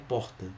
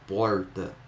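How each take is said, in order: First: The R is a rough sound from the throat. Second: The R is an English-like curled sound. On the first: This is how people from Belo Horizonte say it. "esse que tem da, da garganta" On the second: This is how people from Goiás and São Paulo say it. "esse er, er do R aqui, ó, é muito comum no inglês"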